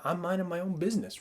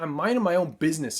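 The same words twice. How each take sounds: First: It is said in a calm, relaxed tone. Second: It is said in an angry, irritated tone. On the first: The creature is left alone and is peaceful. "But otherwise, they're like, yeah" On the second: The creature has been attacked and will fight back. "screw man, screw off"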